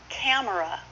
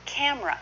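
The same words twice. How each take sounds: First: "Camera" as cam-er-a; full three syllables. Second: "camera" as CAM-ra; shortened, two syllables. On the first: Teacher showing the long form, "Camera" in three syllables. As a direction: keep the middle vowel in "Camera". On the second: Teacher modelling the common form, "camera" as two-syllable cam-ra. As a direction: drop the middle vowel of "camera". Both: Shown as a demonstration. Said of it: "should be".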